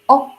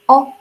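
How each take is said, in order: The two takes are said the same way.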